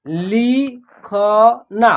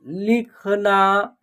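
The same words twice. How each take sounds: First: "लिखना" as लि, ख, ना with gaps; very slowly separate "लिखना" into three sounds; spelled out by syllable. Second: Said in the usual way. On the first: Shown as a demonstration. Teacher sounding out a word, "लिखना" syllable by syllable. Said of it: "तीनों को जोड़ेंगे तो एक शब्द". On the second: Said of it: "एक शब्द तैयार हो जाएगा".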